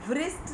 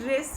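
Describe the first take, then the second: First: A w sound is said before the r. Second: The word starts directly with the r sound. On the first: The speaker calls it wrong. "लेकिन रिस्ट में व्रिस्ट नहीं बोल रहे हम" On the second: The speaker calls it right. "rest is very clear"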